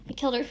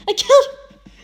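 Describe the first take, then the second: First: Said in the usual way. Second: High, loud anguished scream; screamed confession. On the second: A narrator's reading. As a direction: scream it out in horror.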